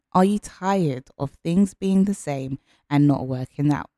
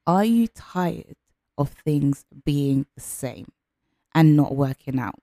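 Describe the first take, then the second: First: Said in the usual way. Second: Slow, deliberate coaching question. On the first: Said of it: "question repeated". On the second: Shown as a demonstration. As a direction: ask it slowly to make them think. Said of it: "coach asks slowly".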